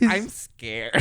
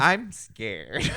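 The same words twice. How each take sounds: First: Put-on little girl voice. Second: Lightly voiced scared little girl; a hint of a frightened kid. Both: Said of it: "that line always throws me off".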